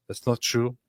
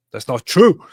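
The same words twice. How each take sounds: First: Said in the usual way. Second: "true" punched loud with a rise; emphatic stress on true. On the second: Real, not acted. Streamer rebutting a viewer's comment, emphatic stress on "true". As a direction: hit the word "true" hard and high. Repeats denial louder for emphasis.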